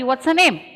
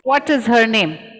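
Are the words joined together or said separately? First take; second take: joined; separate. First: The words run together quickly and smoothly. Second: Each word is said fully and separately. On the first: "I will be faster" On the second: "This is how I will write"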